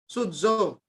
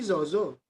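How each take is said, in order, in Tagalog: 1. Ang gitnang katinig ay tunog na dz. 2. Ang gitnang katinig ay simpleng tunog na z. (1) "binopronounce siya palagi na dz sound" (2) "Hindi zozo"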